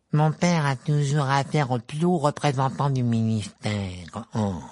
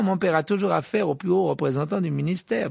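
First: Mocking Malfoy. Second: Malfoy bragging, higher; Malfoy's own original boast; smug boast. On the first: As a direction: parrot the boast to ridicule it. Ron mimics Malfoy. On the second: Acted. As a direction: preen about his father.

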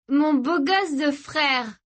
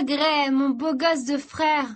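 First: High, slow, doting croon; drawn-out and blissed out; high-on-ecstasy affection; dreamy sister. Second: High, slow, doting croon; high-on-ecstasy affection; dreamy sister. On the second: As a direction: draw it out lovingly. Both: Acted.

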